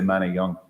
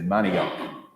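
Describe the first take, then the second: First: The word ends without any K sound. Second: The word ends with a hard K sound. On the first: This is how it is said in the original language. "We would say Manayung" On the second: This is how the town name is usually said. "you say that hard K at the end"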